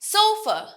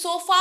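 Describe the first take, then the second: First: It is said with an English pronunciation. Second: It is said with a Bengali pronunciation. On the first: The speaker calls it right. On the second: The speaker calls it wrong.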